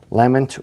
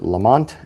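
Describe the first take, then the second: First: The name is said the non-American way. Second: The name is said the American way.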